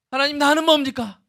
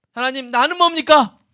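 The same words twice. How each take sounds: First: High plaintive cry with the weight on 나는; self-pitying lament. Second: High plaintive cry with the weight on 뭡니까; self-pitying lament. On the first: Pastor voicing a self-obsessed believer crying to God, stressing himself. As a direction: wail 하나님, 나는 뭡니까 and press down on 나는. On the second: Pastor voicing a self-obsessed believer crying to God, plaintive and high. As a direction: wail 하나님, 나는 뭡니까 and lean hard on 뭡니까. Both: Pretend.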